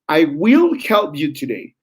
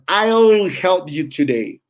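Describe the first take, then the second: First: 'I will' is said as two full words. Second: 'I will' is contracted into one syllable. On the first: "exaggerating the sounds"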